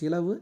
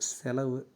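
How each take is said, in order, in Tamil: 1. முதல் அசையில் i உயிர் ஒலி உள்ளது. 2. முதல் அசையில் e உயிர் ஒலி உள்ளது. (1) "சி வரக்கூடாது" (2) "சேதா வரணும்"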